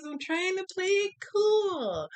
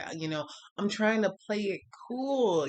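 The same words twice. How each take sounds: First: High strained squeal on "I'm trying to play it cool"; mock frantic squeak. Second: Said in the usual way. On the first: High squeal, telling viewers she's trying to play it cool. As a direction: squeak it out, pretending to be calm.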